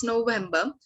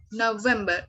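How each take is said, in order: First: November said "no-VEM-ba"; German pronunciation. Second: Said in the usual way. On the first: Shown as a demonstration. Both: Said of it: "month's name in German".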